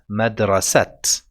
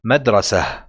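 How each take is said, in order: First: The word ends with a clear t sound. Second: The word ends with an audible h sound. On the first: "you might have tried to pronounce it as madrasat" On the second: "when we pause ... it will sound like a ha"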